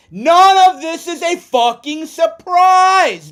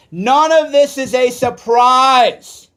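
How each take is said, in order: First: Much higher and louder, slow, nearly shouting; real furious near-shout; furious outburst. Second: Louder and slow, each word weighed; holding back a boil, said slowly; slow, pressed real anger; rising anger. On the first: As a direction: let it explode at them. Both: Real, not acted. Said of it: "I'm getting fired up".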